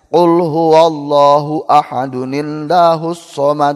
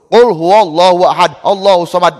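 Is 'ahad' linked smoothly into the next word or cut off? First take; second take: linked; cut off. First: Ahad is linked smoothly into the next word. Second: Ahad is cut off from the next word. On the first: The speaker calls it right. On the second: The speaker calls it wrong. "Wasol henteu, waqaf henteu"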